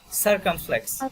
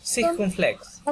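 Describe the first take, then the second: First: "circumflex" said as English, SUR-kum-flex; English pronunciation. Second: "Circumflex" said as French, seer-kohm-flex; French pronunciation. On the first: Teacher giving the name in English, English pronunciation. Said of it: "In, in, in English". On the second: Teacher giving the name in French, French pronunciation. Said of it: "and in French". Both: Shown as a demonstration.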